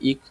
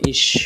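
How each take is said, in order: First: The word ends in a hard k sound. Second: The word ends in a soft sh-like sound. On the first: This is a regional way of saying it. "আঞ্চলিক উচ্চারণ ইক বলা হয়" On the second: This is how it is said in Germany. "তালব্য স উচ্চারণ করা যায়"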